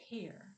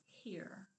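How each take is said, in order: First: "Here" with a long, breathed h at the beginning; drawn-out first sound. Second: Said in the usual way. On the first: Shown as a demonstration. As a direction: hold the h of "Here" before the vowel. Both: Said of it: "at the beginning of it is the sound we snipped".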